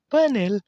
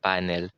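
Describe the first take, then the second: First: High-pitched, exaggerated "Panel!"; playful echo. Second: Said in the usual way. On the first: Word repeated in exaggerated voice. (pabirong matinis na boses)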